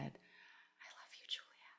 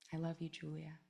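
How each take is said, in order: First: It is whispered very quietly. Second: It is said a little louder. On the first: "I just whispered, like really quietly at first" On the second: "I said it a little louder"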